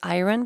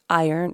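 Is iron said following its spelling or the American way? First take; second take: spelling; American. First: The word is sounded out following its spelling. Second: The word is said the usual American way. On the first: The speaker calls it wrong. "I thought it was iron because that's how you spell it" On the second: The speaker calls it right. "But apparently, okay, it's iron"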